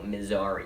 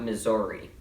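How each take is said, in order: First: The vowels sound normal, with no O sound. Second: A vowel in the word sounds like an O. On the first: The speaker calls it right. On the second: The speaker calls it wrong.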